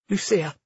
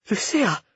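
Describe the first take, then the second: First: Weak, higher-pitched plea; barely able to speak. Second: Higher, falling stunned name. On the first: Cleo turns to Lucia in horror, barely speaking. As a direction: force the name out, overwhelmed. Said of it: "Cleo barely managed to speak". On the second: Cleo sees Lucia waiting for them, stunned. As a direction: say the name in mild shock. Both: A narrator's reading.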